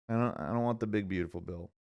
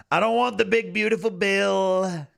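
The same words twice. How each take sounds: First: Said in the usual way. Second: Trump impression. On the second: Streamer demanding a Netflix special instead, Trump voice. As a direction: boom it out as a Trump parody.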